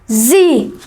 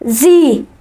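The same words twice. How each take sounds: First: It is said the American way, as in the USA. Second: It is said the American way, as in the USA.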